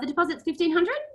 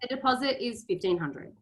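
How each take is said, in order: First: The voice rises at the end. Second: The voice falls at the end. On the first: The amount sounds open to question. The speaker calls it wrong. "suddenly they're going to say, but is it?" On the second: The amount is fixed and final. The speaker calls it right. "that's finite"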